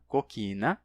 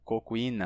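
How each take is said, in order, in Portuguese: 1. Um k simples, sem glide. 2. Um glide w segue o k do meio. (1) "se simplifica para qui" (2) "primeiro esse qui"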